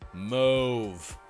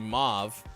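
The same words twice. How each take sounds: First: The vowel is a long 'oh' sound. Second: The vowel is an open 'ah' sound. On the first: "rhyme with stove" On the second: "with a short A sound like father"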